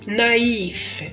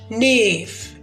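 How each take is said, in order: First: The middle vowels are said as two sounds. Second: The middle vowels merge into one sound. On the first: The speaker calls it right. "ننطق نايف" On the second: The speaker calls it wrong. "ما ننطقش نيف"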